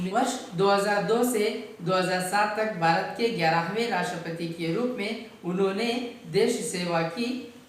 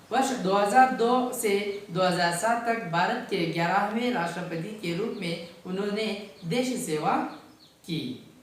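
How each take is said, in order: No difference in how they are said.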